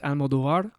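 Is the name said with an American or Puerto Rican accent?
Puerto Rican. It is said with a Puerto Rican accent.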